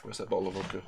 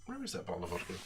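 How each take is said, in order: First: Put-on lightly slurred drunk voice; a hint of a drunk, sagging; drunk person impression. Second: Put-on much softer drunk mumble; drunk, mumbling. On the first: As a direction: mumble it like a tipsy man hunting the bottle. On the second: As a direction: slur it half to yourself. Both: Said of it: "I can do a very good drunk person impression".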